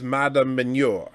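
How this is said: The name is said with a French-sounding pronunciation. "it almost sounds like a French name the way she says it"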